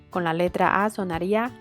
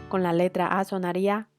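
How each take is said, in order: Both takes have the same delivery.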